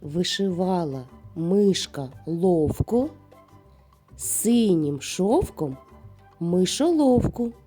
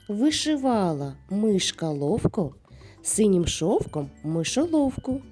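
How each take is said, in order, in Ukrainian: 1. Її вимовляють повільно й обережно. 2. Її вимовляють швидшим темпом. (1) "не поспішаючи, повторюйте за мною" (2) "А тепер давайте швидше"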